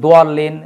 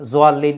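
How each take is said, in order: First: The word begins with a 'd' sound. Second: The word begins with a 'z' sound. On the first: The speaker calls it right. "এখন সবাই শুদ্ধটা উচ্চারণ গ্রহণ করেছে দোয়াল্লিন" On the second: The speaker calls it wrong. "অনেক সমস্যা ছিল আগে"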